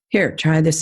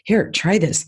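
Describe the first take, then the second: First: The voice is calm and flat. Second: The voice is lively and enthusiastic. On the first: The seller shows little enthusiasm for the product. The speaker calls it wrong. "If I just sat there very calmly and said" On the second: The seller shows passion for the product. The speaker calls it right. "oh my gosh, you're just going to love this"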